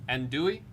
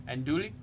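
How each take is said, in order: Both takes have the same delivery.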